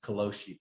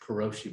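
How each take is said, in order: First: The middle consonant sounds more like an l. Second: The middle consonant is an English r sound. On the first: The speaker calls it right. "it's kaloshi because they pronounce their R's that way" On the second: The speaker calls it wrong. "I'll pronounce it karoshi"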